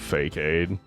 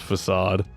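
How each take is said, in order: First: It sounds like 'fake aid', two separate parts. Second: It sounds like 'fa-sahd', ending in a soft s. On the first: The speaker calls it wrong. "I definitely called it Fake-Aid" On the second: The speaker calls it right. "how you pronounce facade"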